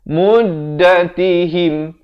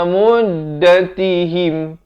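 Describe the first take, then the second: The two takes are said the same way.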